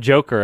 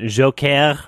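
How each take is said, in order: First: It is said with a plain English accent. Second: It is said with an exaggerated French accent. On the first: "now it's not Joker" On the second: "I'm just going to pronounce it Joker, just like this obnoxious"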